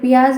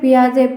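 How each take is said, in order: First: The name ends on a 'j' consonant sound. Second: The name ends with an 'ay' vowel sound. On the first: The speaker calls it wrong. "पियाज नहीं, नहीं तो प्याज ओनिया बना देंगे" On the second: The speaker calls it right.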